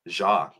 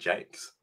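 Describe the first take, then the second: First: The surname is said with a French pronunciation. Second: The surname is said like the English word 'jakes'. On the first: "that's how you'd say it in France" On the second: "he just says Brian Jakes"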